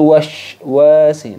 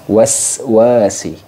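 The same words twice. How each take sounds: First: The s sound is pronounced like sh. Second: The s sound is a clear hissing s. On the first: The speaker calls it wrong. "kesalahan yang sering terjadi itu min syarril waswasi. Jadi sin yang ini malah ngikut ke bunyinya sin yang ini" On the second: The speaker calls it right. "sin sofir. Waswasi"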